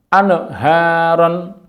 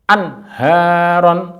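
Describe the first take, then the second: First: An extra vowel sound follows the n. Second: The n closes cleanly with no added vowel. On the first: The speaker calls it wrong. "terjadi bunyi ne atau lahan" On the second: The speaker calls it right. "nun sukun an sama dengan an"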